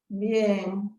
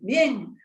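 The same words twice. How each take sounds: First: The word sounds flat and downcast. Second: The word sounds plain and cheerful. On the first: The person is not really doing well. "captaste en esa entonación un matiz, un sentimiento" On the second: The person really is fine. "Fíjate qué entonación"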